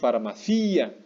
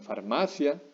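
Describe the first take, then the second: First: The i is stressed strongly; stress falls on 'ci'. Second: The i is not stressed; stress falls on 'ma'. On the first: The speaker calls it wrong. "no decimos farmacia" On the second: The speaker calls it right. "no estamos pronunciando fuerte la I"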